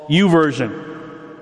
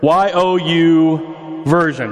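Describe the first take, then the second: First: Said in the usual way. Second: "Y O U Version" with Y, O, U spelled letter by letter, slow. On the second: Shown as a demonstration.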